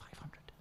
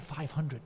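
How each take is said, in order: First: Breathless whisper of disbelief; stunned whisper. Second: Said in the usual way. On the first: Retold or imitated. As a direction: whisper it as if you can't believe the number. Stunned reaction to the number.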